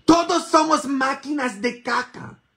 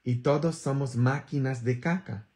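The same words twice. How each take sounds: First: Much higher and louder, hammering it home; loud repeat. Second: Said in the usual way. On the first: Shown as a demonstration. Priest shouting the point to his congregation, loud and high. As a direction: shout "Todos somos máquinas de caca" to the congregation.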